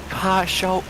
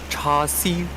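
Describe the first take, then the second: First: It is said with Mandarin pronunciation. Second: It is said with Cantonese pronunciation. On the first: "how to say Cha Shao in Mandarin" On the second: "Cha Siu in Cantonese"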